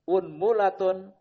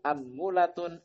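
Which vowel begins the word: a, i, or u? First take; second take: u; a. First: The word begins with the vowel u. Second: The word begins with the vowel a. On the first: "di dhamma huruf hamzahnya" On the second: "dengan fathah yang pertama hamzahnya"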